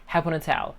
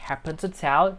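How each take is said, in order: First: The words are reduced and run together. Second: Each word is said separately and fully. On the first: "they say" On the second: "instead of saying like"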